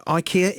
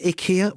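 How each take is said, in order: First: Ikea said as eye-KEE-a; English pronunciation. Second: Ikea said as ih-KEE-a; advert pronunciation. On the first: Presenter weighing two versions, eye-KEE-a for ikea. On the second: Presenter weighing the alternative, ih-KEE-a for ikea. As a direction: start ikea with a short "ih". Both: Shown as a demonstration. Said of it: "what is it?".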